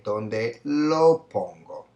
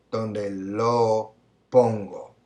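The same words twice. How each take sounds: First: Slow answer. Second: Drawn-out last option; slow option. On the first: Teacher revealing the answer slowly to students. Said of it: "we would say". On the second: Teacher listing the final option slowly. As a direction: read the last choice slowly and trail down. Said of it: "we can say". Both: Shown as a demonstration.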